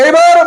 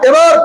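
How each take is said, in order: Both takes have the same delivery.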